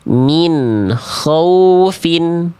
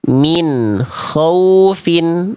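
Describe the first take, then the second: No difference in how they are said.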